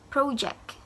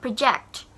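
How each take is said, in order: First: "project" said PRO-ject, weight up front; stress on first syllable. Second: "Project" said pro-JECT, weight at the end; stress on last syllable. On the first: Teacher showing project as a noun, front-stressed "project". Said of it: "in the front of the word". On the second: Teacher contrasting verb with noun, end-stressed "Project". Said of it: "stress at the end of the word". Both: Shown as a demonstration.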